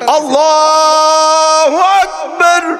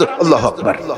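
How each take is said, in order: First: It is said slowly, drawn out. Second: It is said quickly, in a hurry.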